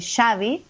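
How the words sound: It is said the Argentine way.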